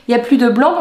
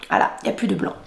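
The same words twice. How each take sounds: First: Said in the usual way. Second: Breathy whisper to herself. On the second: Real, not acted. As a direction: whisper it as you notice.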